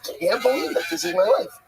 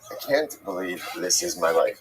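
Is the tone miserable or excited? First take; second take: excited; miserable. First: It sounds excited and grateful. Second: It sounds miserable and weary.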